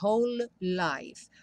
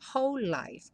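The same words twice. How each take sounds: First: The two L sounds are said separately. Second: The two L sounds merge into one. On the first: The speaker calls it wrong. "você não fala whole life" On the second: The speaker calls it right. "como um L só"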